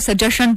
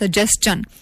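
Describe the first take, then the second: First: The middle sound is a plain 'sh'. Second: The middle sound is 's' followed by 'ch'. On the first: The speaker calls it wrong. "निन्यानवे percent लोग, लोग इसको सजेशन पढ़ते हैं" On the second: The speaker calls it right. "Basically it is pronounced as सजेस्टन"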